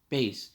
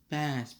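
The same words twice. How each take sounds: First: The vowel sounds like the one in 'base'. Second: The vowel sounds like the one in 'class'. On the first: It refers to music. The speaker calls it right. "it's Bass. Definitely, because music reference" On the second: It names a fish. The speaker calls it wrong. "I always think it's Bass, but no"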